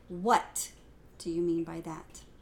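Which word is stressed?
what. The emphasis falls on the word what.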